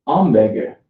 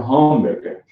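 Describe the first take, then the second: First: HAMBURGER as "amberger", nasal French opening vowel; silent H. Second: HAMBURGER with a clear English H at the start; sounded H. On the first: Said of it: "French East Side student will say". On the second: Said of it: "not a hamburger". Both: Shown as a demonstration.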